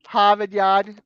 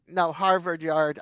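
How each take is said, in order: First: "Harvard Yard" said "Hahvahd Yahd", R's dropped, a bit louder; Boston accent. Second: Said in the usual way. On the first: Shown as a demonstration. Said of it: "You drop your R's is what you do". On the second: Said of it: "I can say that".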